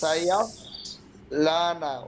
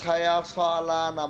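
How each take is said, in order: First: The s sound is held with no vowel. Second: A vowel follows the s sound. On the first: The speaker calls it right. "যেহেতু সাকিন আছে ওখানে কি করতে হবে, খামতে হবে" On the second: The speaker calls it wrong. "সদ জবর সব পড়তিছো"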